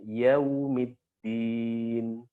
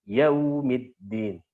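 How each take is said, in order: First: The vowel glide is smooth and soft. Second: The vowel glide is cut off with a jolt. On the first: The speaker calls it right. "Harus ada lembutnya" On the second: The speaker calls it wrong.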